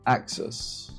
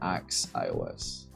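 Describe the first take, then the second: First: The word is said like the word axis. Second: The word ends sounding like the letters iOS. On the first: "That's probably how you're supposed to pronounce it" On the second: "Contaminated from a iPhone development"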